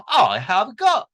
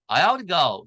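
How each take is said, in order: First: Emphatic British accent, higher and louder; British delivery with each word distinct. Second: American accent, "have to" run together. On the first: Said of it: "액센트가 영국 영어는 강하니까". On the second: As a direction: soften the t in an American way. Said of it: "미국은 그냥". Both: Shown as a demonstration.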